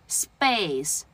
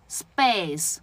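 The two takes are said the same way.

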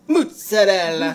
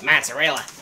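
First: It is said with an Italian accent. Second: It is said with a Kentucky accent.

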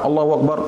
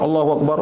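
The two takes are said the same way.

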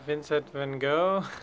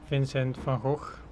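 First: The name is pronounced the English way. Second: The name is pronounced a non-English way.

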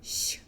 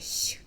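Both takes have the same delivery.

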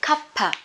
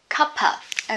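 First: The two words are run together as one word. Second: The two words are said as separate words. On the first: "link them together" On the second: "You can say a cup of tea"

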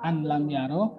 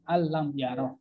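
First: The n is kept before the following l. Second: The n merges fully into the following l. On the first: The speaker calls it wrong. "Jadi bukan an lam yara" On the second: The speaker calls it right. "tapi alam yara"

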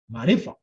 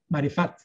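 First: The word ends on a vowel, no T sound. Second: The word ends with a pronounced T sound. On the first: The speaker calls it right. "não pronuncia o T" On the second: The speaker calls it wrong. "mas não pronuncia o T"

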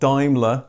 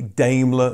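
First: The name is said a non-British way. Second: The name is said the British way. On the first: The speaker calls it wrong. "not Daimler ... I said it wrong" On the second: The speaker calls it right. "I know that Brits say Daimler"

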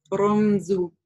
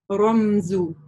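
No difference in how they are said.

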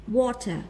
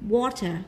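The two takes are said the same way.

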